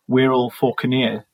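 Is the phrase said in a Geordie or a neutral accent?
neutral. It is said in a plain, neutral accent.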